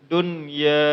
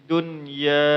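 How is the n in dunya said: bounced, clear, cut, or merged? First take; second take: clear; clear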